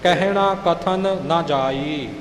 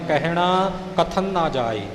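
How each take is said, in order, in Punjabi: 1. ਇਹ ਧਿਆਨ ਨਾਲ ਬੋਲਿਆ ਜਾਂਦਾ ਹੈ, kathan ਦਾ n ਪੂਰਾ ਉਚਾਰਿਆ ਜਾਂਦਾ ਹੈ। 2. ਇਹ ਜਲਦੀ ਵਿੱਚ ਬੋਲਿਆ ਜਾਂਦਾ ਹੈ, ਇੱਕ n ਅੱਧਾ ਨਿਗਲਿਆ ਜਾਂਦਾ ਹੈ। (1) "ਪਹਿਲਾਂ ਕਥਨ ਪੂਰਾ ਬੋਲ ਕੇ ਫਿਰ ਅੱਗੇ ਨਾ ਬੋਲਣਾ" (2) "ਆਪਾਂ ਕਾਹਲੀ ਵਿੱਚ ਪੜ੍ਹ ਜਾਂਦੇ ਹਾਂ"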